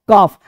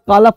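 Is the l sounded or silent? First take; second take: silent; sounded. First: No l sound is heard before the f. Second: An l sound is heard before the f. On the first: The speaker calls it right. "इस सब में एल चुप" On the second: The speaker calls it wrong. "नहीं"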